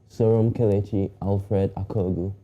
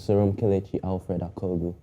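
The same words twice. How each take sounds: First: The name is said slowly. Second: The name is said at normal speed.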